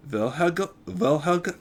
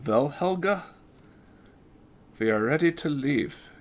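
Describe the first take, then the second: First: Put-on German accent, tripping over the name; stumbling into a German accent; stuttered German accent. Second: Put-on retaken German accent, higher. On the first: Big Doc greets Helga, stuttered German accent. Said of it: "Sorry, stuttering in an accent". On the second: Big Doc announces to Helga, German accent. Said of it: "That's new for me".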